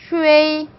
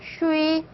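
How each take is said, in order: First: An 'e' sound is heard between 'u' and 'i'. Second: The 'e' sound is left out between 'u' and 'i'. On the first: "슈에이 이렇게 발음하셔도 되는 거예요" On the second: "슈이라고 발음하시면 돼요"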